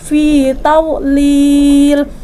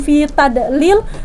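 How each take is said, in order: First: The consonant is a held, sustained dh sound. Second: The consonant is a short plain d sound. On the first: The speaker calls it right. "tawlil itu huruf dha tidak mengantul bukan huruf dal, jadi fi tawlil ditahan" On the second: The speaker calls it wrong. "bukan fi tadlil"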